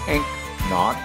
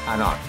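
First: The C sound is clearly pronounced. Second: The C sound is left silent. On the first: The speaker calls it wrong. "It's not pronounced anCnoc" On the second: The speaker calls it right. "we do not pronounce the C. it's pronounced anCnoc"

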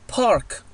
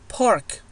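No difference in how they are said.

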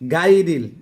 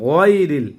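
First: The first vowel is a long open 'aa'. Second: The first vowel is short and rounded. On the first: The speaker calls it wrong. "অনেকে গইন জবর গা বলে, গাইরিল না" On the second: The speaker calls it right.

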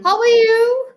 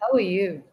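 First: The words are nearly shouted, very loud. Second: The words are said at normal, medium loudness. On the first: "In the beginning, I nearly screamed out" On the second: "That's medium, right?"

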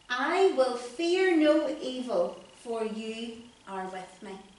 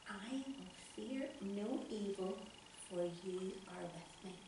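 First: It is said very loudly. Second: It is said very quietly.

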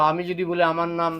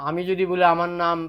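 No difference in how they are said.

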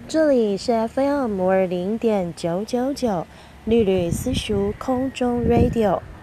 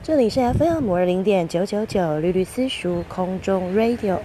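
First: The words are spoken at a slow speed. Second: The words are spoken at a medium speed. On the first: It is used for key points and important content. "第一种速度，慢慢" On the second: It is used for ordinary teaching. "第二种中速"

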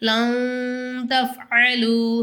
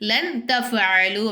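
First: The n sound is hidden with a nasal hum. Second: The n sound is pronounced fully and clearly. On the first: The speaker calls it right. "ரெண்டுத்துக்கும் நடுஸில் சொல்லணும்" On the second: The speaker calls it wrong. "ஆனால் நம்ம அப்படி சொல்லக்கூடாது"

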